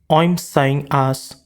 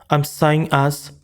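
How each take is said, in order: The two takes are said the same way.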